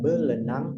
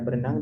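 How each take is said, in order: First: The second consonant is an L sound. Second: The second consonant is an R sound. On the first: The speaker calls it wrong. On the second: The speaker calls it right.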